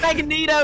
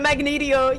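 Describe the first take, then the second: First: It is said with no extra vowel before 'o'. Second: It is said with an extra 'ee' before 'o'. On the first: The speaker calls it right. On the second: The speaker calls it wrong.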